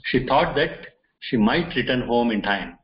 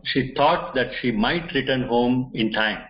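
First: Said in the usual way. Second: Slow and deliberate, each word weighed; slow emphasis. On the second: Shown as a demonstration. Teacher to students showing the example sentence, slow and deliberate. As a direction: spell the example out slowly for learners. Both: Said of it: "There is more emphasis on this".

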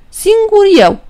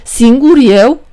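First: "Singur eu" said high, falling at the end; proud self-naming. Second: "Singur eu" asked slowly, rising at the end; puzzled echo. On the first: Păcală tells the devil his name, sly and proud. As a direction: announce the made-up name with sly pride. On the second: The devil repeats Păcală's strange name, puzzled. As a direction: turn the odd name back into a slow question. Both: Acted.

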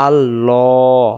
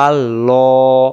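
The two takes are said the same way.

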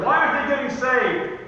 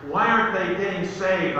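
First: Raised, pleading repeat of the question; insistent question. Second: Said in the usual way. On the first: Acted. Preacher voices worry over people he prayed for, insistent. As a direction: press the question higher and harder.

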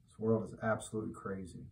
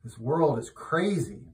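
First: Quick, soft muttered repeat with "world" stressed; fast, softer muttered afterthought; quiet aside. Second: Slow, weighty, "crazy" leaned on with a falling tune; slow, firm declaration; emphatic. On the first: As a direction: drop it under your breath, quickly. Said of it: "repeated louder". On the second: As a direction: declare it slowly and firmly. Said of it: "repeated quieter". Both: Shown as a demonstration.

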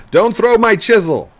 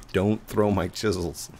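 First: Loud, high-pitched shout; mock yell. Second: Said in the usual way. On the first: Player hamming up a scolding of his son, loud high yell. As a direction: holler it in hammed-up outrage.

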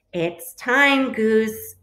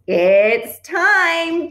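First: Raised, eager "It's time"; excited announcement. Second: Loud, high, stretched "time"; squawk. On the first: Duck tells Goose the moment has come, excited announcement. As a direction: announce it with rising urgency, not yet full out. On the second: Duck announces the egg's moment, excited squawk. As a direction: squawk it out, louder and higher. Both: A narrator's reading. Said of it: "Duck squawked".

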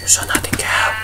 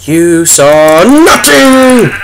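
First: Softer, sinister whisper to a witness; menacing whisper. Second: Slow, drawn-out fake innocence; mock innocent denial. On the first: Pretend. Gamer threatens a cow witness in a sinister whisper. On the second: Gamer tells viewers to forget the kill, slow mock denial. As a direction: insist nothing happened, hamming it up.

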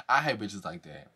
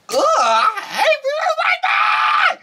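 First: Much softer and lower under her breath; low, quiet grumble; muttered aside. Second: High, laughing shriek of disgust; exasperated squeal, half laughing; shrieked mock outburst. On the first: Real, not acted. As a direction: mutter it to yourself, fed up. Repeats the line to herself. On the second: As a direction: throw it up into a laughing scream. Mocking a castmate, then shrieking.

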